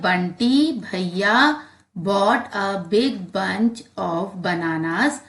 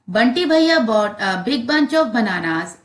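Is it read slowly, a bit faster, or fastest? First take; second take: slowly; fastest. First: It is read slowly. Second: It is read fastest.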